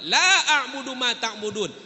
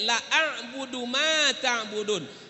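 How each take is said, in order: First: The vowel in the first word is held long. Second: The vowel in the first word is cut short. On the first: I do not worship what you worship. The speaker calls it right. "Lam dibaca panjang la artinya tidak" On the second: I truly worship what you worship. The speaker calls it wrong. "Tapi kalau lam dibaca pendek"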